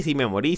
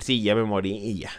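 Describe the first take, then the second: First: Said in the usual way. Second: Mock offhand. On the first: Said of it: "Aunque me digan que sí". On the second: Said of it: "yo voy a hablar y voy a decir".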